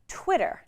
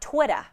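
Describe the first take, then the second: First: It is said in a standard American accent. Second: It is said in an imitated Boston accent. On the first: The speaker calls it right. "Twitter is pronounced Twitter" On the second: The speaker calls it wrong. "not Twitter"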